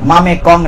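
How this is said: The m joins the next vowel, splitting before k. The speaker calls it wrong. "মামে কং না"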